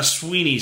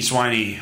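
First: "Sweeney" with a long ee, SWEE-nee; first syllable of "Sweeney" like "swee". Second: "Sweeney" with a long i, SWY-nee; first syllable of "Sweeney" like "swy". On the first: Host stumbling over a coach's name, "Sweeney" said SWEE-nee. Unsure how to read the name. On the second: Host offering the other reading, "Sweeney" said SWY-nee. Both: Real, not acted.

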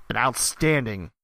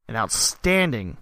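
The two takes are said the same way.

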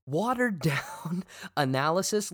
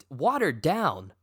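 First: Incredulous laugh. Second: Said in the usual way. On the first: Real, not acted. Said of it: "repeats insult laughing". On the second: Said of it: "repeats insult".

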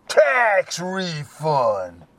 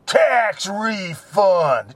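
First: Slow, drawn-out disdainful Tax refund. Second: Flat disdain. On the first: Drug dealer answering Eddie, slow and disdainful. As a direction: dismiss the question with contempt. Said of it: "He goes all disdainly". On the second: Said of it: "And he goes". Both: Retold or imitated.

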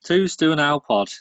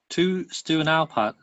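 First: "Alpod" read with an o, as written; second misspelling. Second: Reading "Alpad" with a flat a, as written; misspelt name. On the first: Rereading the email's address as "Alpod". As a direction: sound out "Alpod" exactly as spelt. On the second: Reading the email's misspelt "Alpad" aloud. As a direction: sound out "Alpad" just as misspelt. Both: Shown as a demonstration. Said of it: "He can't spell".

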